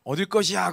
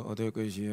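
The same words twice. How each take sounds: First: Said in the usual way. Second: Low, faint, lifeless murmur; dying voice. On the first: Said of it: "그랬는데 이렇게 다 죽어가는 목소리로". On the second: Shown as a demonstration. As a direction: barely get it out, half dead. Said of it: "이렇게 다 죽어가는 목소리로".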